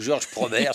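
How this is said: The name is pronounced the French way.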